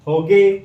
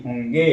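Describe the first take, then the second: First: होगे said without the nasal, a loud bare hoge; होगे with a plain o, no nasalisation; wrong reading. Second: होंगे with the nasal on the o, rising; होंगे said with a nasalised o and a rising end; correct reading. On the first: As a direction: read होगे flat with no nasal sound. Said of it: "तो होगे तो होगा नहीं". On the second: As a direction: read होंगे with a clear nasal hum. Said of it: "लड़के खुश होगे नहीं". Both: Shown as a demonstration.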